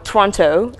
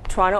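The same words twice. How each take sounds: First: It is said in the listeners' accent. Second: It is said in the speaker's own accent.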